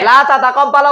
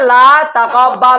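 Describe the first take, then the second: First: The verb begins with two ta syllables. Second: The verb begins with one ta syllable. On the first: "দুটোটা রাখতেও পারবো" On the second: "একটাকে ফেলে দাও"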